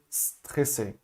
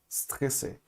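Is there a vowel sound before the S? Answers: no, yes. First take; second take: no; no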